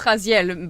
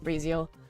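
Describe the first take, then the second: First: The name is pronounced with a French accent. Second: The name is pronounced with an English accent. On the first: "in French it's Raziel" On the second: "in English I will pronounce it Raziel"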